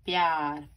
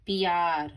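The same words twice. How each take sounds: First: प्यार said with a half p joined to yaar; correct pyar. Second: प्यार said with a separated p and yaar; wrong pyar. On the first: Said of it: "प आधा". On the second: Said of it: "प्यार नहीं बोलते". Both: Shown as a demonstration.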